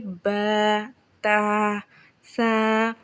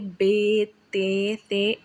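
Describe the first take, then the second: First: The letters are named with Arabic-style vowels. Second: The letters are named with Urdu-style vowels. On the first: The speaker calls it right. "इस तरीके से अरबी लहजे में पढ़ना ये सही तरीका है।" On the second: The speaker calls it wrong. "ये उर्दू तरीका है।"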